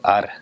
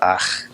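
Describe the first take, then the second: First: The R is a light tapped sound. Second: The R is a hard guttural sound.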